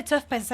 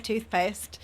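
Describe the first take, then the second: First: "tough paste" with an F ending the first word; Brummie pronunciation. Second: Said in the usual way. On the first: Shown as a demonstration. Denying she says it that way, Brummie pronunciation. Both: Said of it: "I say toothpaste".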